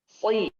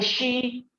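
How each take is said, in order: First: The consonant is a thick s sound. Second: The consonant is a sh sound. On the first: The speaker calls it right. "kasrah juga tebal" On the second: The speaker calls it wrong. "bukan shi"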